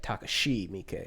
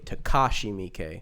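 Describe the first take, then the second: First: The second syllable is not stressed. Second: The second syllable is strongly stressed. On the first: The speaker calls it right. "when it would be like" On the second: The speaker calls it wrong. "Americans tend to over enunciate the second syllable"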